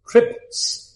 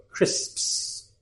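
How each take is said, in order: First: CRISPS with the middle S dropped, like "crips"; learner's mispronunciation. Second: CRISPS with S, P and final S all sounded; corrected pronunciation. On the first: Teacher imitates Thai learners failing the word, mispronounced. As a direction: say CRISPS as "crips", cluster broken. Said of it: "They can't do it". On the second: Teacher corrects the learners' error, carefully pronounced. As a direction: stretch the S-P-S ending of CRISPS clearly. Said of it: "No, crisps". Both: Shown as a demonstration.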